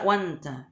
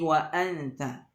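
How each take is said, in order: First: The words run together with no glottal stop. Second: A glottal stop separates wa from anta. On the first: The speaker calls it wrong. "tidak dibaca wanta" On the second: The speaker calls it right. "tapi wa anta"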